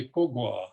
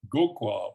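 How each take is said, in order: First: "ko gwa", voiceless k first, voiced g second; voiceless then voiced. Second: "go kwa", voiced g first, voiceless k second; voiced then voiceless. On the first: Lecturer showing voicing options, "ko gwa" voiceless then voiced. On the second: Lecturer showing voicing options, "go kwa" voiced then voiceless. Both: Shown as a demonstration. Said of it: "change the voicing of both syllables".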